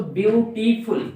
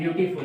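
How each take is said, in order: First: ब्यूटीफुल loudly split as ब्यू, टी, फुल; syllable by syllable. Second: Said in the usual way. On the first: Shown as a demonstration. Teacher counting three syllables, ब्यूटीफुल in separate beats. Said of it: "तीन बार में पढ़ते हैं". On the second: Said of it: "ब्यूटीफुल में तीन syllable होते हैं".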